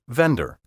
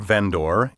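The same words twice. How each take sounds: First: The word is said in a relaxed everyday way. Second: The word is carefully overpronounced, every syllable distinct. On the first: It is the common pronunciation everyone understands. The speaker calls it right. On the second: The speaker sounds pompous and pretentious. The speaker calls it wrong. "over-refined and pretentious"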